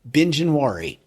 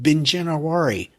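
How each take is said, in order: First: No extra vowel sound is added mid-word. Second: An extra vowel sound is added mid-word. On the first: The speaker calls it right. "Okay, Binjanwari. Got it" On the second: The speaker calls it wrong. "I threw an extra I in there. I said Binjanawari"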